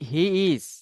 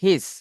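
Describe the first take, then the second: First: It is said as two separate words. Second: It is said as one contracted syllable.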